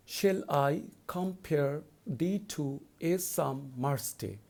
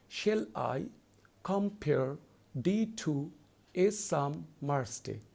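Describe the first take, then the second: First: Slow, measured reading of the verse line; poem recitation. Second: Slow, with a pause after each two-syllable foot; scanning by feet. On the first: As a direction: read the line slowly and evenly. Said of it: "let's go to the first line". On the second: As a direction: break "Shall I / compare / thee to / a summer's day" into feet with pauses. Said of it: "So I'm going to repeat it". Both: Shown as a demonstration.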